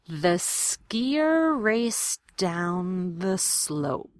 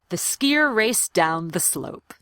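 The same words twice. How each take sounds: First: The sentence is said slowly and carefully. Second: The sentence is said at natural conversational speed. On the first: "I want to do them slowly" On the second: "the way I would say it in a real conversation"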